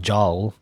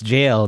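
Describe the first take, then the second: First: It starts with a j sound and rhymes with howl. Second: It starts with a j sound and rhymes with pale. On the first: The speaker calls it wrong. "or I don't know, jowl" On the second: The speaker calls it right. "it's jail"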